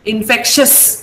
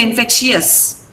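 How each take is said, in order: First: Infectious said as "in-FEK-shus", two-part ending merged; correct "-shus" ending. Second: Infectious mispronounced as "in-FEK-shee-us"; wrong "-ee-us" ending. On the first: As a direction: end "infectious" in a short "shus", no EE. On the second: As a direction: slip an extra EE into the end of "infectious". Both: Shown as a demonstration. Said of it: "Don't say infectious".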